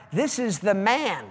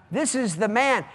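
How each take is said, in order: Both takes have the same delivery.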